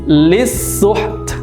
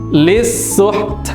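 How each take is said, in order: First: The final t sound is clearly heard, breathy. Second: The final t sound is clearly heard, breathy.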